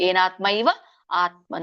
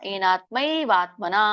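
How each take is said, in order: First: The words are said as separate words. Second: The words are merged into one word. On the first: "ಅಂತ ಹೇಳ್ಬೋದು ಬಿಡಿಸಿ" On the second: "ಇಲ್ಲಾಂದ್ರೆ ಕೂಡಿ ಹೇಳ್ಬೋದು"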